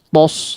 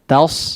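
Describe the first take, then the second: First: The first syllable sounds thick and heavy, like 'tos'. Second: The first syllable sounds thin and light, like 'tas'. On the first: The speaker calls it wrong. "Jangan menjadi tos" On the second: The speaker calls it right. "Tapi ta, tas, la"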